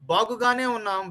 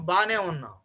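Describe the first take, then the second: First: The first word keeps all its syllables. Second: The first word is squeezed into two syllables. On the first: "we write something" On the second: "Four letters have become two letters. This is spoken"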